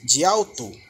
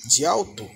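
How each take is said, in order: First: The words run together, dropping the first final vowel. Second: The same.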